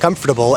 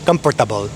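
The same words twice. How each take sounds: First: It is said with an American English pronunciation. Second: It is said with a Filipino pronunciation.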